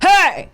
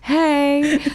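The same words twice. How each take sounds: First: It is said in a blunt, gruff way. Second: It is said in a friendly, soft way.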